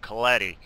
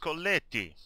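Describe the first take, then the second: First: The name is said with an American pronunciation. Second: The name is said with an Italian pronunciation.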